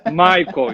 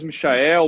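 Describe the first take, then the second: First: The name is pronounced the English way. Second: The name is pronounced the Portuguese way. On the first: "é mais inglês do que alemão" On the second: "Português Michael"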